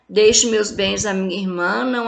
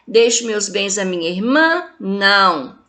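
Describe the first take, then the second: First: It runs straight through without stopping. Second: It stops after irmã with a questioning tune. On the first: "tinha ponto nenhum nesse texto, saiu atropelando tudo" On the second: "O sobrinho pontuou da seguinte forma"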